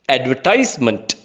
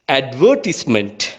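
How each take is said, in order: First: It is said in an American English accent. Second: It is said in a British English accent.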